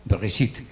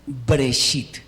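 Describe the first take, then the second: First: "Bereshit" con una e corta tras la b; pronunciación correcta. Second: "Breshit" sin vocal entre b y r; la forma equivocada, con sonido extraño; pronunciación incorrecta. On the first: Shown as a demonstration. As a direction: di la vocal breve y clara. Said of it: "pero es corta". (como se debe decir) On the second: Retold or imitated. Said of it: "no es". (como no se debe decir)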